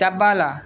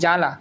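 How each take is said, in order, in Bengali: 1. প্রথম ব্যঞ্জনের পরে একটি 'b' ধ্বনি আছে। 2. প্রথম ব্যঞ্জনের পরে কোনো 'b' ধ্বনি নেই। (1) "আমরা তো বলি না জাব্বালা" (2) "বলছি কি জ্বালা"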